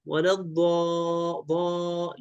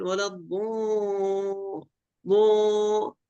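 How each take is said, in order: First: Slow, held ضاء with an open 'a'; open dad. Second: Long, slow, higher ضو with the 'a' closed toward 'o'; wrong rounded vowel. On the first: Shown as a demonstration. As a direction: demonstrate the long open vowel in ولا الضاء. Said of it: "لا، الضاد مفتوحة ضاء". (مدّ الضاد مفتوحة: ضاء) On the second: Retold or imitated. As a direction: imitate the reciter closing ضا into a drawn-out ضو. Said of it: "عنده في المد". (تقليد مدّ الضاد مضمومًا: ضو)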